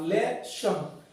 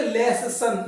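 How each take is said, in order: First: लेशन with a single soft "sh"; teacher modelling the right reading; correct pronunciation. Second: लेसन with a long, doubled "ss" and a drawn-out end; lightly mocking the wrong reading; wrong pronunciation. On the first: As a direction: say लेशन as "le-shun", no doubled sound. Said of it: "double अक्षर आए single ही पढ़ना". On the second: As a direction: show the mistaken लेसन to avoid. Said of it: "ऐसा नहीं है लेसन". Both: Shown as a demonstration.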